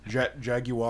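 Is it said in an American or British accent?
British. It is said in a British accent.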